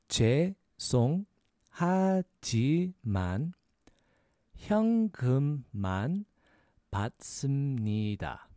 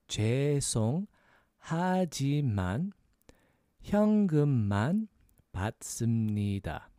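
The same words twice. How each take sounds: Both takes have the same delivery.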